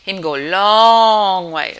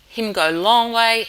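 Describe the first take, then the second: First: The word 'long' is drawn out the most. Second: The word 'long' is drawn out only slightly. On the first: The place is the longest way away. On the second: The place is a long way away.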